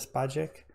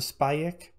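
First: The J is sounded like English J. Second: The J is sounded like a short Y. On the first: The speaker calls it wrong. "I've been pronouncing anything with a J in it bad" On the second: The speaker calls it right. "The J is like a, let's say, a short Y"

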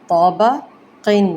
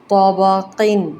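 Both takes have the same delivery.

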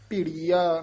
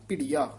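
First: The word is said slowly and drawn out. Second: The word is said quickly and compactly. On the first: The speaker calls it wrong. "ਭਿੜੀਆ ਨਹੀਂ ਕਹਿਣਾ" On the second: The speaker calls it right. "ਛੇਤੀ ਬੋਲ ਦੇਣਾ"

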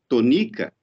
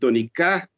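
First: The stress is on the second syllable. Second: The stress is on the third syllable. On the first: "a tônica caía na segunda sílaba, N-I" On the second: "então você teria que rimar com sabiá"

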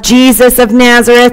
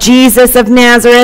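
First: It is said loudly and boldly. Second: The same.

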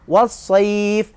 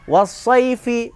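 First: The word ends on the f consonant. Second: The word ends with a short i vowel. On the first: The reading stops on this word. "jika waqaf dibaca was-sayf" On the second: The reading continues on without stopping. "Was-sayfi menjadi was-sayf matlin"

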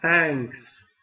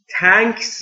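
First: It starts with a soft th sound. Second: It starts with a hard t sound. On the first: The speaker calls it right. "نوک زبون زیر دندونهای نیش بالا" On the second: The speaker calls it wrong. "تانکس نیست. تانکس یعنی تانک ها"

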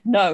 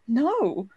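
First: It is said flatly, without emotion. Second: It is said with strong emotion.

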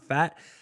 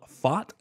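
First: The vowel sounds like the one in 'fat'. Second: The vowel sounds like the one in 'fought'. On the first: The speaker calls it wrong. "not Fat. You guys are fake for never telling me that I was saying it wrong" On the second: The speaker calls it right. "I just think I learned it's called Fought"

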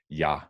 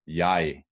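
First: The pronoun is unstressed and reduced. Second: The pronoun is stressed and fully pronounced. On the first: The pronoun carries no emphasis. "most times it's not, and that therefore it's just pronounced ja" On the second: The pronoun carries emphasis. "when it's stressed, the pronoun is pronounced ˈjɑj"

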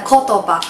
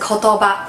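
First: The pitch is high on the first syllable. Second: The pitch stays flat across the word. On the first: "现在变成kotoba" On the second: "原本是kotoba"

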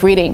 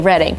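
First: The first vowel is a long 'ee' sound. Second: The first vowel is a short 'eh' sound. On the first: The speaker calls it wrong. "which is actually spelled like Reading" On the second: The speaker calls it right. "but you just say Reading"

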